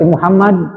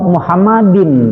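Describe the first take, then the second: First: The word stops on a bare final d. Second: The word ends with an added -in sound. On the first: The reciter pauses after this word. "Mau diwakaf ya berarti" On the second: The reciter carries on into the next word. "berarti diteruskan, jangan berhenti"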